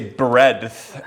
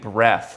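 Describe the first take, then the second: First: It is said with a d sound before th. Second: It is said without a d sound before th. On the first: The speaker calls it right. "you have to say breadth" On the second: The speaker calls it wrong. "you're saying breath, like breathing"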